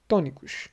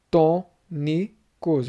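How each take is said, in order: First: Said in the usual way. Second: Tônicos very slowly split as tô-ni-cos; long pauses between the three syllables of tônicos. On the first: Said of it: "é a tom". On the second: Shown as a demonstration. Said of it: "eu tenho três sílabas".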